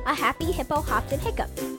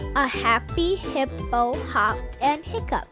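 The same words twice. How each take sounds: First: It is said fast. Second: It is said slowly.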